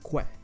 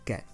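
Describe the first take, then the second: First: The u is pronounced as a w after k. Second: The u is silent, just k plus e. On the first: The speaker calls it wrong. "the other one wasn't que" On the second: The speaker calls it right. "it was ke"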